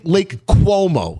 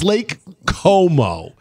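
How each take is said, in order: First: The name begins with a 'kwo' glide sound. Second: The name begins with a plain 'ko' sound. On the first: The speaker calls it wrong. "a lot of people say Lake Cuomo. It's not" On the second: The speaker calls it right. "It's Lake Como"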